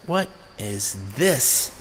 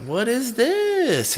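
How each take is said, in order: First: Quiet awe. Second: High and slow, stretched in wonder; amazed what is this. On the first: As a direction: let it sink in slowly. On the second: Hearing a new song on the radio, high amazed drawl. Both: Retold or imitated. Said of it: "And I was like".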